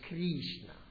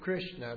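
First: It is said with a Spanish accent. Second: It is said with no foreign accent. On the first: "they say Krishna" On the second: "they don't say Krishna"

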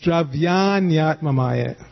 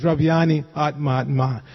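First: The two words are run together with a y. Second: The two words are said separately with an i. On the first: The speaker calls it right. "like that, and you run it into the next word" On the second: The speaker calls it wrong. "Don't say it separately, it just ruins the meter. So it's not"

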